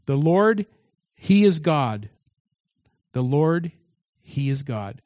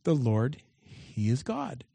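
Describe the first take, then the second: First: The Lord, he is God shouted out in awe; crowd proclaiming. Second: Quiet meaning of the name. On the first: Acted. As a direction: proclaim it like a people on their faces. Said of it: "they fell on their faces and they said". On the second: Shown as a demonstration. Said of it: "what Elijah's name meant".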